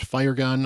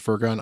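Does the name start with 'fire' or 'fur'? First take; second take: fire; fur. First: The first part sounds like the word fire. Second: The first part sounds like the word fur. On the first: This is how others say it should be said. "She is actually pronounced fire gun" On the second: This is the speaker's habitual way of saying it. "Maybe I'll still pronounce it Furgun"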